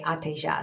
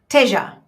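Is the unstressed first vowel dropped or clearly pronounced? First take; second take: pronounced; dropped. First: Every syllable is open and clear, Brazilian accent. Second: The unstressed first vowel is dropped, local accent.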